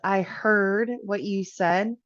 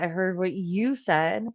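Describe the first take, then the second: First: It sounds sincere, stressing that it was heard. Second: It sounds accusatory or defensive. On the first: The message really was heard. "we're emphasizing that, yeah, we did hear them" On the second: The speaker is accusing or defending themselves. "we might be being accusatory or we might be being defensive"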